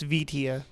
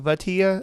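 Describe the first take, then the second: First: The first vowel is an I sound. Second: The first vowel is an A sound. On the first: The speaker calls it right. "but it's Vitia" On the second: The speaker calls it wrong. "some people say it with like an A sound"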